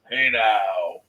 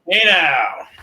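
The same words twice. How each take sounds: First: It is said in a deep voice. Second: It is said in a normal voice.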